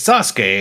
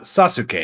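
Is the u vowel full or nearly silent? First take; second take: nearly silent; full. First: The u vowel is weak, nearly silent. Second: The u vowel is fully pronounced. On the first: The speaker calls it right. "the vowel U is often weakly pronounced" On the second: The speaker calls it wrong. "and not"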